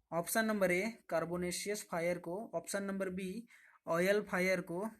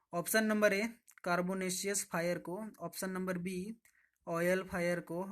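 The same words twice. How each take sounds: Both takes have the same delivery.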